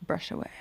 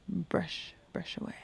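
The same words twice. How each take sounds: First: Said in the usual way. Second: Whispered repeat of brush away; hushed echo. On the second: Real, not acted. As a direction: murmur brush away softly to yourself.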